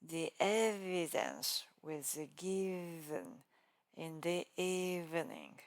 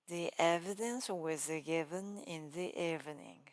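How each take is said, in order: First: The V sounds are strongly exaggerated. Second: The V sounds are said naturally.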